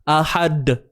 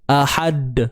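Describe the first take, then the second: First: The final d is held locked, unreleased. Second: The final d is released with a bounce. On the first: The speaker calls it wrong. "kita dah kunci bunyi dia" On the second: The speaker calls it right. "Tu bawa lantun d d d d d"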